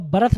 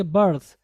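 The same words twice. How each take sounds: First: बर्थ wrongly split as ba-rath; mispronunciation demo. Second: बर्थ as one syllable, burth; correct pronunciation. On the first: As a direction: add an extra vowel inside बर्थ, ba-RATH. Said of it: "इसको आप बर्थ नहीं पढ़ेंगे". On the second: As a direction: model बर्थ firmly with no vowel after the r. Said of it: "क्या पढ़ेंगे?". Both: Shown as a demonstration.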